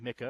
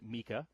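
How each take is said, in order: First: The first vowel matches the i in institute. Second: The first vowel differs from the i in institute. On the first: "some people pronounce it MICA because it's institute" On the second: "Some people pronounce it MICA"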